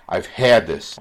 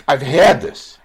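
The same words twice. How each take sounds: First: Said in the usual way. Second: Higher and louder, hitting HAD hard; real emotional burst, had stressed; emphatic outburst. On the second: Real, not acted. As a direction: blurt it out from personal pain. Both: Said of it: "sorry for getting so emotional".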